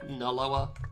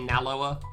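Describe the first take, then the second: First: The first vowel is a short 'uh' sound. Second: The first vowel is an open 'ah' sound. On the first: This is how the speaker usually says it. "I pronounce it like N U H as opposed to N A" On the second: This is not how the speaker usually says it. "I don't really say Naloa"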